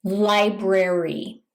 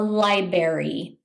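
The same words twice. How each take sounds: First: "library" slow, with both r sounds, "lie-brary"; careful "library" with both r sounds; correct pronunciation. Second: "library" dropping the first r, like "li-berry"; "library" without its first r; mispronounced library. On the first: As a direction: say "library" slowly with the r after b. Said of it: "so it should be pronounced". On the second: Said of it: "mispronounce this by calling it a". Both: Shown as a demonstration.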